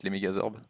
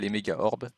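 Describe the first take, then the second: First: A z sound links méga and orbes. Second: No z sound links méga and orbes. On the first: The speaker calls it wrong. "bah ça se prononce comme ça en fait" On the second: The speaker calls it right. "il n'y a pas de S"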